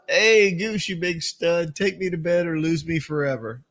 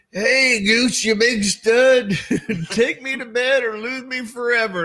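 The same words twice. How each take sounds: First: Said in the usual way. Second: High, slow, hammed-up flirty call; high, slow mock come-on, laughing; mock Meg Ryan. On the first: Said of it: "she yells out". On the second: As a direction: camp it up like a flirty starlet. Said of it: "Meg Ryan ... goes".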